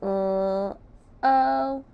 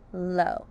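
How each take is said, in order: First: "L, O" as two held sounds with a gap; "L, O" stretched out sound by sound. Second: Said in the usual way. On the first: Shown as a demonstration. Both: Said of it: "Sound low".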